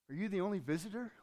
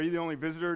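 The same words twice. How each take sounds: First: It is said in a weak, hopeless voice. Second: It is read flatly, without emotion. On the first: The speaker calls it right. "You have to read it with the emotion that's there" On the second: The speaker calls it wrong. "you don't read this"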